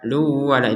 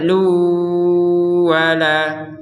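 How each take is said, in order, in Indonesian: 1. Bunyi n langsung masuk ke wala tanpa dengung sengau. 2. Bunyi n menyatu dengan wala dengan dengung sengau yang panjang. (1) "kalau tidak ada dengung maka itu kurang" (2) "Harus ada dengung dua harokat panjangnya"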